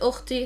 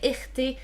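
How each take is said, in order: First: The word starts with a 'u' vowel. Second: The word starts with an 'i' vowel. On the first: This is the speaker's own pronunciation. "I pronounce it" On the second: Some other speakers say it this way. "Some people would say"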